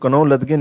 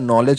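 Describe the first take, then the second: First: The initial k is sounded, read letter by letter. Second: The initial k is silent, said as nollej. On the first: The speaker calls it wrong. "कनौ लदगे नहीं होता भैया" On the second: The speaker calls it right. "नॉलेज होता है"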